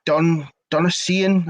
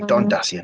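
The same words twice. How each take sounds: First: Slow, unsure "Donasian" with the syllables run together; mispronounced name. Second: "Don Dacian" said cleanly as two words, DA-see-an; corrected name. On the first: Commentator slowly stumbles over the player's name, getting it wrong. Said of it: "I think I butchered that name". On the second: Commentator repeats the corrected player name with settled certainty. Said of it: "There we go". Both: Real, not acted.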